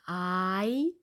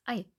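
First: The i vowel is long. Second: The i vowel is short. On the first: The speaker calls it wrong. "Es ist nicht I" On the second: The speaker calls it right. "kurzen I"

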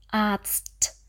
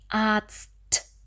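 The two takes are said the same way.

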